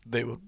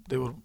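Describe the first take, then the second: The two takes are said the same way.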